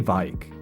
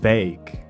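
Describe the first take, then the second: First: The vowel sounds like 'eye'. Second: The vowel sounds like 'ay'. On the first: The speaker calls it wrong. "I say Vike" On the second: The speaker calls it right. "oh, it's Vake"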